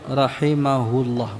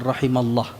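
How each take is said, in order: First: The word has five syllables, with a middle 'hu'. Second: The word has four syllables, without a middle 'hu'. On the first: The speaker calls it right. "Rahimahullah, bukan rahimallah" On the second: The speaker calls it wrong. "bukan rahimallah"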